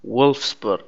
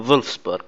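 First: وولفسبورغ with an English W sound; English pronunciation. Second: فولفسبورغ starting with a German V sound; German pronunciation. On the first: Recalling how football fans say the team name in English. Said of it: "لو تنطقه بالإنجليزي". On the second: Explaining that the Germans call the team فولفسبورغ. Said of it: "هم يسمونه فولفسبورغ". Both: Shown as a demonstration.

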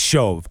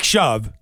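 First: "Shove" rhyming with stove; long-o pronunciation. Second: "Shove" rhyming with love; short-u pronunciation. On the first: Host preferring his guess, "Shove" said like "stove". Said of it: "But I think it's Shove". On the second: Host comparing with the common word, "Shove" with a short u. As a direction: say "Shove" like the verb to push. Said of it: "sh-, like Shove". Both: Shown as a demonstration.

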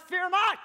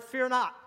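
First: "fear not" cried out high and loud; emphatic fear not. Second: "fear not" set out firmly, moderate volume; stress on fear not. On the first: Preacher driving home a repeated command, "fear not" loud and high. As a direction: punch out "fear not" at raised pitch and volume. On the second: Preacher underlining a key word for viewers, "fear not" firmly stressed. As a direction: give "fear not" measured weight. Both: Real, not acted. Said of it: "I wanna stress that word".

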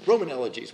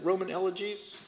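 First: Said in the usual way. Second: ROMAN ELEGIES rising softly as a question; tentative ROMAN ELEGIES with a rising, questioning end. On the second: Real, not acted. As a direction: check the title ROMAN ELEGIES, softer, voice lifting at the end. Unsure of title, checks it.

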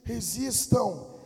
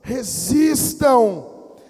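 First: Slow, stretched RESISTAM at normal volume; drawn-out exhortation. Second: Very slow, loud RESISTAM; forceful exhortation. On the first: Preacher telling believers to resist, slow measured exhortation. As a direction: hold back, stretching out RESISTAM. Exhorts, then repeats it louder. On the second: Preacher urging believers to resist, loud drawn-out cry. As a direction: belt out RESISTAM, stretching each syllable. Same word repeated, escalating. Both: Real, not acted.

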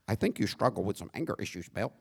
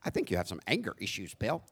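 First: Lightly voiced polite white man, soft and quick; a mild mock of a mild-mannered white guy; a hint of a prim suburban husband, fast and soft; corny white voice. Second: Light mock of a polite white wife, soft and quick; a touch of a prim, mild white voice; gently hammed-up corny white voice. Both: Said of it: "my corny white voice".

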